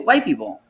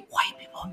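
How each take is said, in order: First: The phrase is spoken in a normal voice. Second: The phrase is whispered. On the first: The speaker treats the topic as ordinary. The speaker calls it right. "You say" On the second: The speaker treats the topic as touchy. The speaker calls it wrong. "You don't say"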